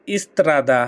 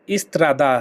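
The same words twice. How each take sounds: The two takes are said the same way.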